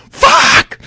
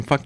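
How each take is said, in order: First: Very high, loud scream; sudden involuntary yell, re-enacted. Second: Said in the usual way. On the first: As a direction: scream it out in shocked excitement. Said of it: "and I scream". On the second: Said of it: "I didn't scream".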